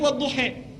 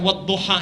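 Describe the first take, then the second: First: The final vowel is shifted toward 'e'. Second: The final vowel is an open 'a'. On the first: "bisanya wadduhe" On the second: "kalau misalnya diturunkan A"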